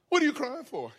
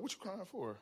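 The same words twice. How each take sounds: First: Higher-pitched retold repeat; mock insistent parent questioning a child; insistent parental question. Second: Low-key, much softer retold question; understated parent checking on a child; quiet parental question. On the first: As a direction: ask it pointedly, pitch jumping up. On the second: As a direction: ask it softly, almost under your breath. Parent first asks crying child.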